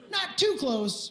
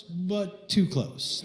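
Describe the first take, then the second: First: Slow drawn "not too close" with high stress on too. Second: Very slow "but too close", "too" leaned on low; stress on too. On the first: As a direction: stretch out "too" playfully. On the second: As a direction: drag "too close" knowingly. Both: Shown as a demonstration.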